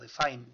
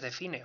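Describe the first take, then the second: First: It is pronounced like an English word. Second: It is pronounced like a Spanish word. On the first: The speaker calls it right. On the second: The speaker calls it wrong.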